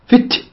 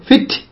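First: The t is released with an audible breath. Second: The same.

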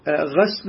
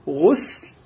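First: The first vowel is an open 'a' sound. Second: The first vowel is a rounded 'u' sound. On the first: It refers to washing the thing being washed. "فتقول الغسل هكذا بفتح" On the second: It refers to a ritual bath named for an occasion. "فيضم الغين"

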